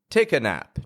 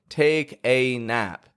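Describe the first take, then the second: First: The vowel in 'a' is a weak schwa. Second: The vowel in 'a' is full and strong. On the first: The speaker calls it right. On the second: The speaker calls it wrong.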